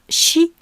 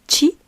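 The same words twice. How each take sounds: First: It begins with a soft 'sh' sound. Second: It begins with a 'tch' sound. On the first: This is the French reading of the spelling. "en français, chi se prononce chi" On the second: This is the Japanese reading of the spelling. "en japonais, chi se lit chi"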